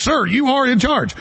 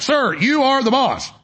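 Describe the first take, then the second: First: Slow, higher, overly polite "Sir"; mock deferential aide. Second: Slow, higher, overly polite "Sir"; hammed-up aide soothing the boss; mock deferential aide. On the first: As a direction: play a fawning aide reassuring the boss. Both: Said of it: "They're like".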